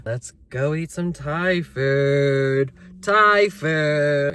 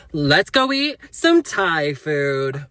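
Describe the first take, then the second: First: Said in the usual way. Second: Drawn-out, slow, hammed-up influencer delivery. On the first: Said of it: "Wait, let me say it like an influencer". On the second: Shown as a demonstration. Vlogger redoing the dinner announcement for her viewers, influencer voice. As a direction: stretch it out louder like an influencer. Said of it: "let me say it like an influencer".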